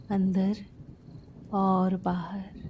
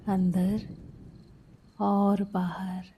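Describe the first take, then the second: No difference in how they are said.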